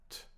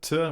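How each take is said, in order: First: The consonant is short, quick and soft. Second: The consonant is pushed out hard and heavily. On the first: The speaker calls it right. "So very softly" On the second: The speaker calls it wrong. "We don't pronounce"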